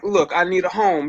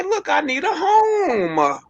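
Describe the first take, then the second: First: Said in the usual way. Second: Imitating a man begging for a home, pitched up and drawn out; a high, slow whiny plea for a place to stay; pitched-up begging man, mocking. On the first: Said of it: "like, they, like". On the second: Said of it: "But then just say".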